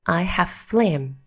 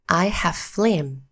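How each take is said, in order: Both takes have the same delivery.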